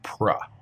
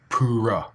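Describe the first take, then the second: First: The P and R are joined without a vowel. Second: A vowel sound separates the P and R. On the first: The speaker calls it right. "prepare your mouth for both sounds together" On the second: The speaker calls it wrong. "You don't pronounce it separately, not pura"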